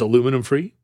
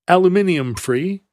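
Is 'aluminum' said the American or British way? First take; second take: American; British. First: The word is said the American way. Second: The word is said the British way.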